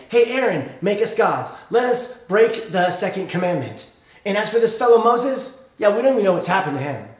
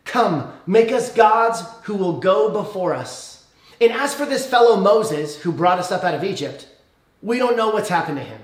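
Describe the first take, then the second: First: Casual paraphrase. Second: Reading the people's demand. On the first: Restless Israelites badgering Aaron, casual and pushy. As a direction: toss it off like a restless crowd. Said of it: "That's what they say". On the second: Preacher reads the Israelites demanding gods. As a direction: read the crowd's words out formally. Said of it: "and they say this". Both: Retold or imitated.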